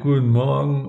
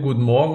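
First: The greeting is said flatly, without energy. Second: The greeting is said in a lively, energetic way. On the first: The pupils answer without enthusiasm. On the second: The teacher greets the class.

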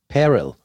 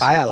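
First: The name is said with an American pronunciation. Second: The name is said with an Austrian German pronunciation. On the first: This is how the name is said in North America today. "it's Payrell, like apparel" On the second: This is how an older Austrian relative would have said it. "Das hätte früher vielleicht seine Oma gesagt"

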